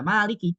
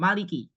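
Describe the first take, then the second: First: The vowel after the m is long. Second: The vowel after the m is short. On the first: It means owner. "Kalau meme-nya panjang maka dia menjadi isim fa'il" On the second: It means king. "yang membaca meme-nya pendek"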